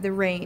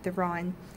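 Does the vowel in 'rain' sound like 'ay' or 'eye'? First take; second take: ay; eye. First: The vowel is a plain 'ay' sound. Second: The vowel shifts toward an 'eye' sound. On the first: "instead of uh, the rain" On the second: "the E becomes that I"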